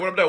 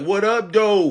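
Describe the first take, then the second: First: The words run together like one word. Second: The words are said separately, with breaks between. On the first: The speaker calls it right. "It's like one word" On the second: The speaker calls it wrong.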